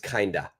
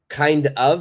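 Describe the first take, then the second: First: The words blend into one reduced word. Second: Both words are said fully and separately.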